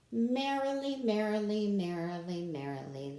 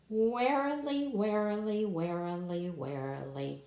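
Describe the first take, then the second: First: Merrily cheerfully descending; happy falling merrily. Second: Warily sung descending, growing sleepy; warily stepping down. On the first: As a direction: bounce merrily down a staircase. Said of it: "See how happy and excited they are?". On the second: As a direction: let warily sink down like a sigh. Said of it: "look out for that word on this page". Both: Shown as a demonstration.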